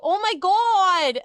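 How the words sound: It is said in a borrowed, different accent. "if I'm scared, ... or get shocked or whatever, I go"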